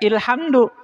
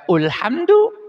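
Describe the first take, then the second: First: The word begins with the vowel i. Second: The word begins with the vowel u. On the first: "jangan dibaca ilhamdu" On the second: "Jangan dibaca ulhamdu"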